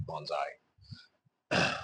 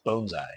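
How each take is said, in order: First: "bonsai" with an open "ah", like "bahn-zai"; accented mispronunciation. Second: "bonsai" with a long O, like "bone-zai"; correct pronunciation. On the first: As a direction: say "bonsai" with first vowel as in "bon-bon". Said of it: "It just sounds like I'm saying bonsai". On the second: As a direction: say "bonsai" with first vowel as in "bone". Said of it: "I know it's bonsai". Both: Shown as a demonstration.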